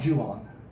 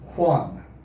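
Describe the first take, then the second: First: It begins with an English J sound. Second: It begins with an H-like sound. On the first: The speaker calls it wrong. "It's not Juan" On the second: The speaker calls it right. "It's pronounced Juan. The J sounds like an H in English"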